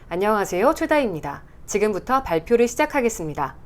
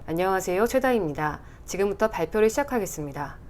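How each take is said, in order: First: The mouth opens wide and every vowel is carefully articulated. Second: The mouth barely moves and words are loosely articulated. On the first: The speaker calls it right. "더 꽂히는 게 있죠" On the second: The speaker calls it wrong. "입을 많이 안 움직이고 좀 대충대충 하면은"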